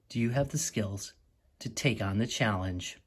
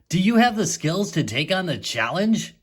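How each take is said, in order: First: It is read flatly, not like a question. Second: It is read with a questioning intonation. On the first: The speaker calls it wrong. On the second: The speaker calls it right.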